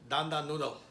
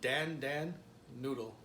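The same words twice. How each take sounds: First: Dan Dan is said with a native Chinese pronunciation. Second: Dan Dan is said with an American English accent. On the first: The speaker calls it right. "The real way is" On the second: The speaker calls it wrong. "that's American way of saying it"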